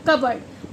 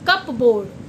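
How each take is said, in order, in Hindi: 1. p silent है, kabard जैसा बोला जाता है। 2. p बोला जाता है, जैसे cup + board। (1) "पी साइलेंट" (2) "ना कि कप बोर्ड"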